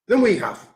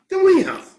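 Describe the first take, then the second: First: Said in the usual way. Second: Much higher, disbelieving repeat; high outraged echo; incredulous echo. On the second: Real, not acted. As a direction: throw it back in disbelief.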